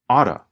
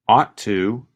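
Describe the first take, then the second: First: The t is reduced into a quick flap. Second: The t sound is pronounced clearly and fully.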